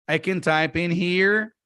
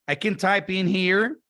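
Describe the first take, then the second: Both takes have the same delivery.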